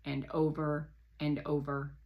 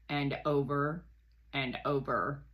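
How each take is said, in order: Both takes have the same delivery.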